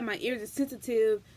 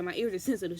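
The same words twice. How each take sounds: First: It is said in a softer, explaining tone. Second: It is said in a harsh, strict tone. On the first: It tries to justify the command. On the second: It is a stern command.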